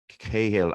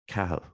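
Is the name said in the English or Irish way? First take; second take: English; Irish. First: The name is said the English way. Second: The name is said the Irish way. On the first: "it's that pronunciation that the English use" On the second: "I got it right"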